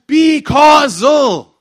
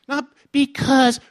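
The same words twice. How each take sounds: First: "be causal" shouted high and very slow; emphatic correction. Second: "because" pulled slow and high, split in two; contrasted word. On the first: Preacher hammering home the right word, shouted stress on "be causal". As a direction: stretch "be" and "causal" into two big loud beats. Sets "be causal" against "because. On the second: Preacher correcting the crowd's word, contrastive stress on "because". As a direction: set up "because" as the wrong word, raised and drawn out. Sets "because" against "be causal. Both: Shown as a demonstration.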